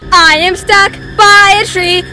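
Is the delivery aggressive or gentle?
aggressive. It is said in an aggressive way.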